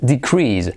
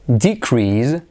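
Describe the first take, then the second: First: The stress is on the second syllable. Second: The stress is on the first syllable. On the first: It is used as a verb. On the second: It is used as a noun. "descenso ... acentuamos la primera sílaba"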